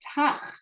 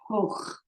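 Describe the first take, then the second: First: The vowel sounds like ah. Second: The vowel sounds like oh.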